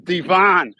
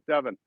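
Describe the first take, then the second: First: Devon is pronounced the American way. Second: Devon is pronounced the English way. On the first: This is how the speaker says it at home. "I grew up on Devon Avenue" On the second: This is how people in England say it. "if I go to England, I'll change. I'll call it Devon or whatever you call it"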